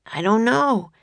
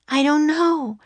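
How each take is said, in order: First: Lightly voiced boy, pitched up; young boy's voice. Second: Put-on high-pitched girl's reply; young girl's voice. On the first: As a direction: answer as the older brother, slightly raised. Jack's voice beside Annie's. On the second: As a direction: voice it as a little sister, pitched high. Annie's voice beside Jack's. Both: A narrator's reading.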